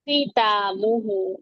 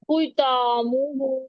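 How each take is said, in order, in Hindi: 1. पहला व्यंजन केवल थोड़ा भारी बोला जाता है। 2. पहला व्यंजन बहुत भारी बोला जाता है। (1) "इसकी अदायगी होगी" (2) "खा को मोटा इतना नहीं करना"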